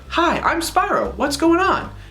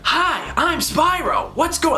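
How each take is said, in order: First: It is said in a plain, restrained way. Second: It is said in an exaggerated, over-the-top way.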